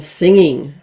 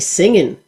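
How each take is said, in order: First: The final g sound is pronounced. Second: The final g sound is dropped.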